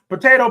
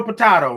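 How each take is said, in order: First: Potato said po-TAY-to; potato as po-TAY-to, punched louder; long-A potato. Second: Potato said po-TAH-to; potato as po-TAH-to, punched louder; broad-A potato. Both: Retold or imitated.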